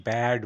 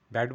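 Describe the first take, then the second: First: ব্যাড with a long, held vowel; stretched BAD. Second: ব্যাড with a short, quick vowel; short BAD. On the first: Teacher showing learners the right sound, stretched ব্যাড. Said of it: "আমাকে stretch করতে হবে". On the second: Teacher showing what not to say, short ব্যাড. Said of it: "ব্যাড বলছি না". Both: Shown as a demonstration.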